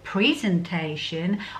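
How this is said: It is said with an American pronunciation.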